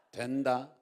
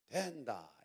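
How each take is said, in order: First: Said in the usual way. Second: DOEN-da in a Gyeongsang dialect lilt; Gyeongsang accent. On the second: Shown as a demonstration. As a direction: demonstrate the Gyeongsang-do version. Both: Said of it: "경상도 버전으로".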